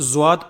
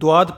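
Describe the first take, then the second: First: It starts with a j-like sound. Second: It starts with a d-like sound. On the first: It sounds like a different letter, jim. "ज्वाद पढ़ते हैं, जा की बू आती है" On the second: It sounds like a different letter, dal. "बाज़ लोग इसको द्वाद द्वाद पढ़ते हैं, दाल की बू आती है"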